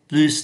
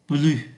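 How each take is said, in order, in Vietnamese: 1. Âm S cuối được phát âm. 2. Âm S cuối là câm. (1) "ký tự S phải phát âm" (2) "không phát âm ký tự S"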